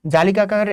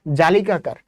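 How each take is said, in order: Both takes have the same delivery.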